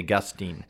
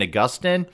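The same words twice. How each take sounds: First: The name is said the way non-Catholics pronounce it. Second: The name is said the way Catholics pronounce it.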